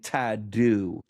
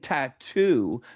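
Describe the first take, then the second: First: The middle consonant sounds like a D. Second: The middle consonant is a clear T. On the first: The speaker calls it wrong. "you're changing the T to a D" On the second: The speaker calls it right. "Instead of saying tattoo"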